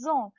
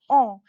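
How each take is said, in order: First: It starts with a z sound before the vowel. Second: It starts with a vowel, no z sound. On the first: The speaker calls it right. "It is pronounced as zon" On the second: The speaker calls it wrong. "ont is not pronounced as on"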